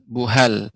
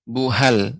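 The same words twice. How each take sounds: No difference in how they are said.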